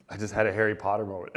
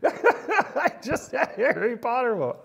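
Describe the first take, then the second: First: Said in the usual way. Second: "I just had a Harry Potter moment" in a higher, louder put-on British accent; a playful British accent, pitched up; mock British accent. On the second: Shown as a demonstration. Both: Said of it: "Completely accent driven".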